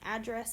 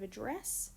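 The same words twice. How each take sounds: First: The word is stressed in the American way. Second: The word is stressed in the Australian way.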